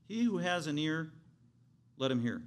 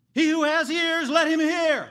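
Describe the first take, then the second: First: Said in the usual way. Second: Crying out at the top of the lungs, high and loud; screamed call. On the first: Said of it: "he didn't say it that way". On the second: Shown as a demonstration. Preacher showing how Jesus called out to crowds, screaming. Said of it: "he would scream at the top of his lungs".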